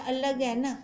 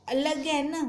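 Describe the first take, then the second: No difference in how they are said.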